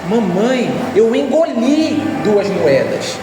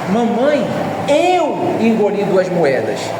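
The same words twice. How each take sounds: First: The stress falls on the word engoli. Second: The stress falls on the word eu. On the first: The act of swallowing is the point. "Está no fato de eu ter engolido" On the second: Who did it is the point. "A ênfase está em mim, fui eu que fiz isso"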